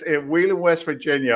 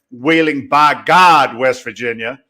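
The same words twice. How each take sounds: First: Said in the usual way. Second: Louder, slowed West Virginia drawl on by God; West Virginia local accent. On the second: Retold or imitated. Guest mimics how West Virginians say their town, local accent. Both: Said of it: "or as they say down there".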